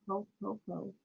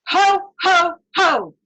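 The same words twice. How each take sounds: First: Much softer, limp ho, ho, ho; half-hearted ho ho ho. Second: Loud, higher Ho, ho from the diaphragm; belly laugh ho ho ho. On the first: Retold or imitated. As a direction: mumble it like you couldn't care less. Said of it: "some of you are going ... that's not the point". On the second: Shown as a demonstration. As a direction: boom it out from the belly, like Santa. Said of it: "so breathe in".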